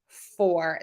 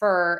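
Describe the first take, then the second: First: The vowel is full, sounding like 'for'. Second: The vowel is reduced, sounding like 'fur'. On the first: "instead of for" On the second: "reduce that word and say fur"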